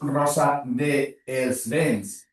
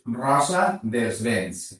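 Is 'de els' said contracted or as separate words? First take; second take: separate; contracted. First: The words 'de' and 'els' are said separately. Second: The words 'de' and 'els' merge into 'dels'. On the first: The speaker calls it wrong. "tu no dius" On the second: The speaker calls it right. "sinó dius"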